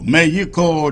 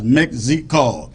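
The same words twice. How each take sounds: First: The name is said with a Spanish-style pronunciation. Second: The name is said with a common English pronunciation. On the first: This is how the locals say it. "that is the way they pronounce it" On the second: This is how most outsiders say it. "many people pronounce it as Mexico"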